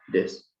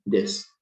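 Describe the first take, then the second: First: Des whispered without voice, short vowel between E and I; des, short vowel, whispered only; whispered sound demo. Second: Des said voiced with a short, open vowel between E and I; des, short vowel, spoken aloud; short vowel sound demo. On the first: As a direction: breathe des with no voice, lips set for E, vowel short. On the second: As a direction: des with the lips shaped for E but a sound toward I, kept short. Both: Shown as a demonstration. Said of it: "tú simulas que vas a pronunciar la E".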